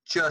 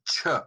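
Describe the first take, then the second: First: The sound is released without a puff of air. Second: The sound is released with a puff of air. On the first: The speaker calls it wrong. "if we do not expel the puff of air, we'll get the ch sound" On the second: The speaker calls it right. "add a breathy aspirated sound to that to make it sound like"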